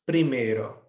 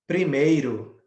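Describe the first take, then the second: First: Primeiro said the Spanish way, primero with no i sound; Spanish pronunciation. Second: Said in the usual way. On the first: Shown as a demonstration. Teacher to students, modelling Spanish primero without the i. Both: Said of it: "em espanhol, se diz primeiro".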